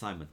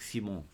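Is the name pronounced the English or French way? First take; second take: English; French. First: The name is pronounced the English way. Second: The name is pronounced the French way. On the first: "It's Simon because we're talking English" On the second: "I'm saying Simon because it's French"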